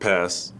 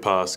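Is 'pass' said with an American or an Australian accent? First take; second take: American; Australian. First: It is said with an American accent. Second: It is said with an Australian accent. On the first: This is how the local teammates say it. "they say?" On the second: This is how the speaker naturally says it. "I'd rather say pass because it just sounds more natural to me"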